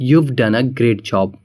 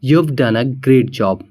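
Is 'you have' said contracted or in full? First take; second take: contracted; contracted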